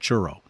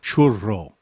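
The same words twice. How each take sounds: First: It is pronounced the plain English way. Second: It is pronounced the traditional Spanish way. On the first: "instead of churro" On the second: "or churro instead of churro"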